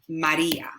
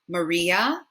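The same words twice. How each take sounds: First: The name is said with a Spanish accent. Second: The name is said with an English accent. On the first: "but our A's, remember, are A" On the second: "in English, we would say Maria"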